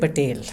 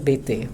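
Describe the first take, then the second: First: The name ends with a clear L sound. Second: The name ends without any L sound. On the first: The speaker calls it wrong. "You did not say Patel" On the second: The speaker calls it right. "The L's are silent in French"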